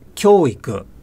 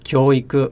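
First: The pitch moves rather than staying level. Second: The pitch stays more or less level. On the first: The speaker calls it wrong. "So it's actually not 教育" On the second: The speaker calls it right. "but 教育, more or less flat"

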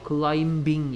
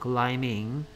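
First: The b sound is pronounced after the m. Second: The b sound is silent after the m. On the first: The speaker calls it wrong. "climbing 이렇게 하면 안 돼" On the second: The speaker calls it right. "B가 소리 안 납니다"

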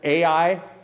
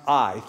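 First: The word is not said like 'eye'. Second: The word is said like 'eye'. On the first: The speaker calls it wrong. "I've heard people pronounce it Ai" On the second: The speaker calls it right. "but it's pronounced I. Think I, or pirate"

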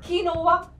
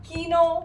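First: It is said in three syllables as kinova. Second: It is said in two syllables as keeno.

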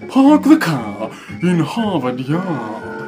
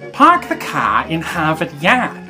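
First: It is said in a British accent. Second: It is said in an American accent.

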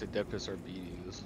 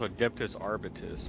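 First: The last word ends with a 'tees' sound. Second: The last word ends with a 'tus' sound. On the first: The speaker calls it right. "but apparently it's" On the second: The speaker calls it wrong. "I always thought it was pronounced"

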